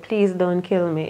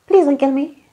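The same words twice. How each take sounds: First: Said in the usual way. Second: High, pleading little voice; quirky little voice. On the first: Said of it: "He said". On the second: Retold or imitated. Imitating the dying tyrant begging, high and quirky. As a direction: beg in a weird small voice. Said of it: "in the weirdest, quirkiest little voice".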